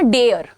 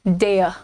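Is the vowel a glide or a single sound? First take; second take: single; glide. First: The vowel is one steady sound. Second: The vowel glides from 'e' to 'uh'. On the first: The speaker calls it wrong. "लेकिन ये डेयर नहीं है" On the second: The speaker calls it right. "ए अ, ए अ, so डेयर"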